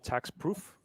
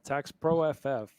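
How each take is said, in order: First: The ending is said as the single word proof. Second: The ending is said as pro plus letters F F. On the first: The speaker calls it wrong. "Some people mispronounce it" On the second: The speaker calls it right. "no, tax pro F F, like for fast and furious"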